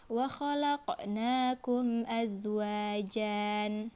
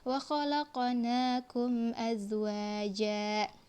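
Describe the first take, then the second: First: The last word ends with an added n sound. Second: The last word ends on an open vowel, no n. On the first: The speaker calls it wrong. "Azwajan itu bacaan yang salah" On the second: The speaker calls it right.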